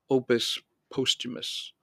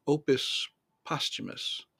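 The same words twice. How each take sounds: First: Posthumus said POHST-huh-mus, long o. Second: Posthumus said PAHST-huh-mus, short o. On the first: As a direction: say Posthumus with the o of "post". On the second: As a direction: say Posthumus with the o of "posture". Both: Shown as a demonstration. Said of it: "Or should it be".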